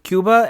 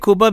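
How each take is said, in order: First: Cuba is said with an English pronunciation. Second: Cuba is said with a Spanish pronunciation. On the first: It fits how the speaker looks. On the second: It is how the speaker's family says it. "that's how my family says it"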